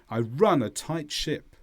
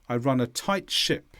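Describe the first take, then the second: First: The word run is stressed. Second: The word run is not stressed.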